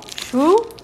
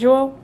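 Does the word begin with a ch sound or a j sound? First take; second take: ch; j. First: The word begins with a ch sound. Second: The word begins with a soft j sound. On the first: "Must be pronounced chuo" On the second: "I almost want to say joao. Like, you know, the Brazilian name"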